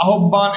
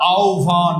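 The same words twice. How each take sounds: First: আহ্বান said as "a-hob-ban"; the rejected "a-hob-ban"; wrong pronunciation. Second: আহ্বান said as "au-bhan"; the approved "au-bhan"; correct pronunciation. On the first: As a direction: double the b in আহ্বান. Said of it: "এটা হবে না উত্তর". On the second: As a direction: glide au into bhan. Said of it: "কি হবে ভাইয়া". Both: Shown as a demonstration.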